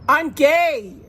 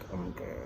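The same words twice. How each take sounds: First: It is said loudly and clearly. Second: It is said quietly, under the breath.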